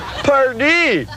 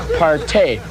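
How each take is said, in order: First: The word ends in a plain 'ee' vowel. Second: The word ends in a drawn-out 'ay' vowel. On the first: The speaker calls it right. "which is the right way to say it" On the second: The speaker calls it wrong. "some people say partay, which is incredibly bogus"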